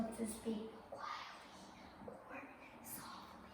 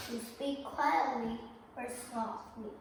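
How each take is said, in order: First: Hushed, unvoiced whisper. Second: Said in the usual way. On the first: Shown as a demonstration. Teacher showing the class what speaking quietly means, whispering. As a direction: drop right down into a soft whisper. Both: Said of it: "to speak like that".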